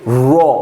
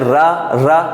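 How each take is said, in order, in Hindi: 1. यह अक्षर मुंह भर के और भारी बोला जाता है। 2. यह अक्षर पतला और हल्का बोला जाता है। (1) "मुंह भर के पढ़ना है" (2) "ये गलत है"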